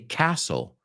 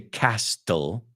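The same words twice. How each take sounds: First: The t sound is left out entirely. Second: The t sound is pronounced in the middle. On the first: The speaker calls it right. "we take out the T" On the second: The speaker calls it wrong. "We don't say Castle"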